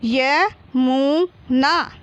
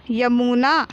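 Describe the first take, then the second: First: Very slow YA, MU, NA with gaps; syllable by syllable. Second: Said in the usual way. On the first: Shown as a demonstration. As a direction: sound out Yamuna in three long, separate syllables. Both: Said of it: "तो मिलके क्या हो गया?".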